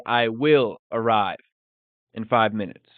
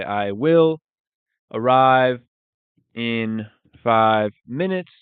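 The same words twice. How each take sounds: First: Said in the usual way. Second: Each word spelled out slowly, "arrive" said louder; slow it down so learners catch every word; slow, clear teaching repeat. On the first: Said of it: "We would say". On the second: Shown as a demonstration. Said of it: "So we would say".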